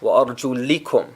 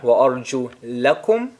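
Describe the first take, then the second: First: The vowel before -kum is an i. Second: The vowel before -kum is an a. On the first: The feet are to be wiped over. "the other time I say it with a kasra" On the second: The feet are to be washed. "Once I say it with a fatha"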